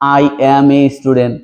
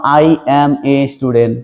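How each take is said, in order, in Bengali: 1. প্রতিটি শব্দ আলাদাভাবে, পূর্ণভাবে বলা হয়। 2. প্রতিটি শব্দ আলাদাভাবে, পূর্ণভাবে বলা হয়।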